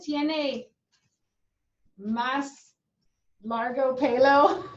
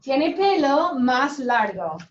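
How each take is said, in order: First: "tiene más largo pelo" in broken pieces, rising questioningly on "pelo"; doubtful wrong example. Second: "Tiene pelo más largo" said loud and firm, falling at the end; emphatic correct example. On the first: Teacher testing awkward word order on the class, doubtful questioning tone. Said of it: "Super Spanglishy, right?". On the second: Teacher showing the class the natural word order, emphatic falling statement. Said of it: "Does that sound nice to you guys?". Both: Shown as a demonstration.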